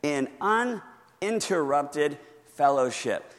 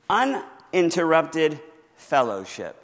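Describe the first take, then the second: First: Uninterrupted said slow and even; slow dictation. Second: Uninterrupted said slow and clear; slow dictation. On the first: Pastor repeating the fill-in answer, slow and deliberate. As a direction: repeat uninterrupted fellowship slowly for note-takers. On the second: Pastor dictating the blank to the congregation, slow and clear. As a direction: spell out uninterrupted fellowship slowly. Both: Shown as a demonstration. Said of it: "That's the second blank there".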